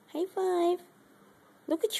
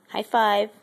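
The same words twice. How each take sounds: First: "High five" much higher and softer, sing-song; squeaky pet voice. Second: Louder, clipped command to the pet. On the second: Asking pet for high five. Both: Real, not acted.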